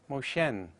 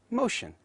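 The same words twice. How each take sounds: First: A weak vowel is heard before the final N. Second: The vowel before the final N is dropped. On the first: "instead of motion" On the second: "is pronounced as motion"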